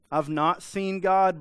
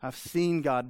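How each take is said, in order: First: Higher, louder and slow, a smug believer. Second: A mild touch of concern, plainly said; concerned believer. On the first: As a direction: say it with a lightly mocking holier-than-thou tone. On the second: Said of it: "brings concern". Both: Retold or imitated.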